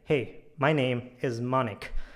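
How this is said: The pitch goes down at the end. The speaker is confident and trustworthy. The speaker calls it right. "my tone was a bit like it was going down in the end"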